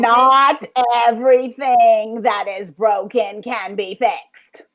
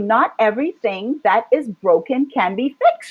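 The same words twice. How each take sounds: First: The sentence is spoken slowly and deliberately. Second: The sentence is spoken at a normal pace.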